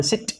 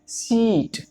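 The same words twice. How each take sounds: First: सिट with a brief short i; सिट said as a quick, small sound; short vowel. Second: सीट with a long held ee, raised in pitch; सीट drawn out before the final t; long vowel. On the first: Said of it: "छोटी sound है". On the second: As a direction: stretch the ee in सीट. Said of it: "लंबी खींच रही sound". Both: Shown as a demonstration.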